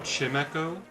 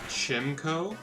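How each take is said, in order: First: The first syllable is 'chime', as in bell. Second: The first syllable is short 'chim'. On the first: The speaker calls it right. "Because it is supposed to be like a wind chime" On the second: The speaker calls it wrong. "I absolutely disagree with saying Chim"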